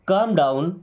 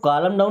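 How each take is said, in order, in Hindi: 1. 'calm' में L silent है। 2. 'calm' में L का उच्चारण होता है। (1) "एल साइलेंट है ना" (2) "इसको कॉलम डाउन नहीं पढ़ते।"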